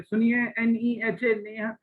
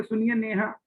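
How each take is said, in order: First: "नेहा" called as letters, "एन ई एच ए", then the name; name spelled out. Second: "नेहा" called as one whole word; name said whole. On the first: Teacher absurdly calling a student by spelling the name. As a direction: spell "एन ई एच ए" while calling someone. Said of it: "ऐसे कहेंगे". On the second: Teacher calling a student properly, name said whole. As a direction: call "सुनिए नेहा" without spelling it. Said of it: "पूरा ही बोलेंगे". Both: Shown as a demonstration.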